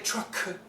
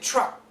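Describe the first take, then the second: First: The final K is fully released. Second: The final K is stopped without release. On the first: The speaker calls it wrong. "you don't say truck" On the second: The speaker calls it right. "this is a stop sound"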